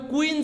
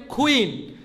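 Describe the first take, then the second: First: কুইন with a plain k, "kuin"; common mispronunciation. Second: কুইন as aspirated "khuin"; corrected pronunciation. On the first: Teacher showing what we usually say, common mispronunciation. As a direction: say কুইন with no puff on k. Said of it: "কুইন যেটাকে বলি". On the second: Teacher correcting the word queen, corrected pronunciation. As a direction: puff air on the k of কুইন. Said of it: "এটা হবে কুইন". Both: Shown as a demonstration.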